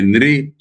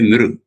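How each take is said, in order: First: The syllable ends with an 'ee' vowel. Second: The syllable ends with an 'oo' vowel. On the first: This is the Bengali way of saying it. "Bengalis will say Nri" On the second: This is the speaker's own way of saying it. "I will say Nru"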